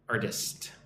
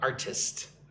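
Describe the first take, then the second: First: The middle consonant sounds like a soft D. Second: The middle consonant is a clear, crisp T. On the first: The speaker calls it right. "it's more like I'm saying it with a with a D" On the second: The speaker calls it wrong. "Not an artist"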